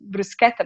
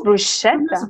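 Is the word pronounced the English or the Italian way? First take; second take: Italian; English. First: The word has an Italian pronunciation. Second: The word has an English pronunciation. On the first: The speaker calls it right. "the right pronunciation is bruschetta" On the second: The speaker calls it wrong. "But in England, people... It's bruschetta"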